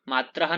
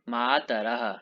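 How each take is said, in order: First: The t and r join with no vowel between. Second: A short vowel separates the t and r. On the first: The speaker calls it wrong. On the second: The speaker calls it right.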